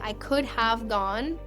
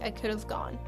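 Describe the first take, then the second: First: The word 'have' is pronounced in full. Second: The word 'have' is reduced to sound like 'of'. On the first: The speaker calls it right. "They should be saying" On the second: The speaker calls it wrong. "it sounds like"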